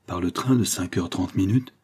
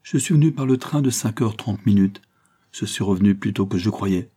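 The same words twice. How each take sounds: First: Worried, rising question about the train; a touch of anxious doubt. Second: Said in the usual way. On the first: A narrator's reading. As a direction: ask it with mild unease. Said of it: "dit-elle avec inquiétude". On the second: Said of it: "dit-il, écrivant toujours".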